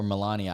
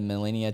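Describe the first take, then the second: First: "Melania" said muh-LAH-nee-uh; corrected pronunciation. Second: "Melania" said muh-LIN-ee-uh; "Melania" mispronounced as muh-LIN-ee-uh; unsure pronunciation. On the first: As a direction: say "Melania" with an open ah in the stressed syllable. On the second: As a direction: say "Melania" with a short ih in the stressed syllable. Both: Real, not acted. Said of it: "I forgot how to say her name".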